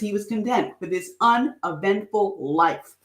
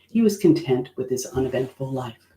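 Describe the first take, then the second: First: It is read with lively feeling. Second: It is read flat and deadpan.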